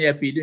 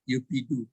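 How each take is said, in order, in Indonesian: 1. Suku kata pertama diucapkan dengan vokal 'a'. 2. Suku kata pertama diucapkan dengan vokal 'u'.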